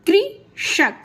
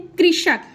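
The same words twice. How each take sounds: First: कृषक slowly, split as कृ, षक; slow syllable demo. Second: Said in the usual way. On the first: Shown as a demonstration. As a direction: stretch and separate the syllables of कृषक. (कृषक धीरे-धीरे, कृ और षक अलग करके) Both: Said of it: "उसको slow से बोलेंगे आप".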